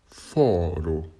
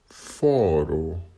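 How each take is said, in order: The two takes are said the same way.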